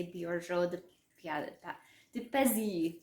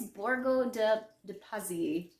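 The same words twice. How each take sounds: First: Borgo de Pazzi in a French accent, Pazzi as peh-ZEE. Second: Borgo de Pazzi said plainly, Pazzi as PAH-zee; no accent. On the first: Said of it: "with French accent". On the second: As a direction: say Borgo de Pazzi with a neutral, careful reading. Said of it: "try to say this with no accent at all". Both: Shown as a demonstration.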